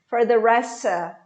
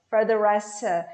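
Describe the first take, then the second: No difference in how they are said.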